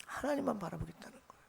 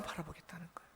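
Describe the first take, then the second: First: Much softer, hushed restatement; soft repeat. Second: Breathy whisper of the answer. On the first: Pastor softly repeating to the congregation, hushed. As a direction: let it sink in quietly. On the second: Pastor whispering the answer to the congregation. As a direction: whisper it like a secret. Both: Real, not acted.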